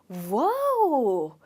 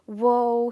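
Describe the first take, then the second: First: It is said in an excited, happy tone. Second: It is said in a sad, sympathetic tone. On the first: Something wonderful has happened. "Am I excited about it? Do I look happy? Yes" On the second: Something unfortunate has happened. "it was really sad"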